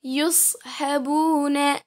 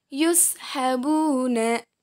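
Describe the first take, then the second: First: Yushabuna slowly with a heavy S; letter sad. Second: Yushabuna slowly with a light S; letter sin. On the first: Teacher contrasts two letters for students, Yushabuna with heavy S. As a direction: say Yushabuna, thick emphatic S before "ha". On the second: Teacher contrasts two letters for students, yushabuna with light S. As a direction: say yushabuna, thin plain S before "ha". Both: Shown as a demonstration. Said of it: "Perbandingan antara huruf so dan huruf sa".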